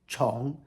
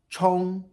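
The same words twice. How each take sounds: First: The pitch rises from mid to high. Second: The pitch stays high and level.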